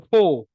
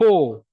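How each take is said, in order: No difference in how they are said.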